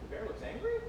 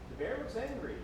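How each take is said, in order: First: The voice rises at the end like a question. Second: The voice falls at the end like a statement. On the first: The words are turned back into a question. "put it into a question with an up top on the end" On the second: The words are repeated back as a statement. "repeat it"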